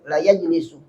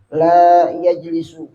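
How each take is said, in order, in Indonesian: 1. Vokal setelah l diucapkan pendek. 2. Vokal setelah l diucapkan panjang.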